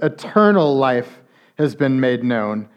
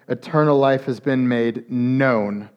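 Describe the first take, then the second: First: The first word carries the main stress. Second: The last word carries the main stress. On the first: "different emphasis on the first word" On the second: "or on the last word"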